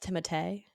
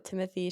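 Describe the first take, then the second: First: The name is said in French fashion. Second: The name is said in plain English fashion. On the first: The speaker calls it right. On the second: The speaker calls it wrong.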